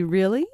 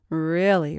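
First: "Really" rising sharply as a question. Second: "Really" falling as a firm answer; confirming. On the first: Tracy doubts Molly about the key, "Really" rising in question. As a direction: ask "Really" with a hopeful upward lift. Disbelieving question, then confirming echo. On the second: Molly confirms to Tracy, "Really" falling with assurance. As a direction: answer "Really" with a settled downward tune. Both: A narrator's reading.

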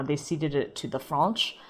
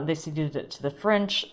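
First: FRENCH said oddly with an open "ah", like "Fronch"; "French" with a broad ah vowel; oddly pronounced French. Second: Said in the usual way. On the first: Real, not acted. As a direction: make French rhyme with launch, "Fronch". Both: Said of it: "I keep pronouncing things oddly".

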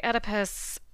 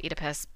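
First: "Oedipus" opening on a short "eh". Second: "Oedipus" opening on a long "ee". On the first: Host shows own pronunciation, "Oedipus" said ED-ih-pus. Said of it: "I say Oedipus". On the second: Host shows other people's pronunciation, "Oedipus" said EE-dih-pus. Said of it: "I know other people say Oedipus". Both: Shown as a demonstration.

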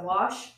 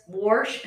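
First: Said in the usual way. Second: Wash with an added R; dad's pronunciation. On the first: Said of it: "instead of wash". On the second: Shown as a demonstration. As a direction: say Wash as WARSH. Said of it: "but my dad does".

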